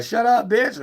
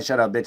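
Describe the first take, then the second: First: Much higher, lighter take; playful, not negative. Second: Said in the usual way. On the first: Shown as a demonstration. Showing how to hush her, high and playful. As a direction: lift it high so it isn't an insult. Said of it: "You saying". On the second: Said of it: "that's something negative".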